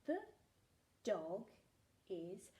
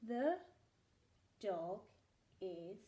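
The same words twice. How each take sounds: The two takes are said the same way.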